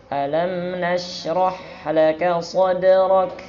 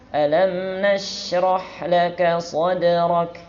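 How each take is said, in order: Both takes have the same delivery.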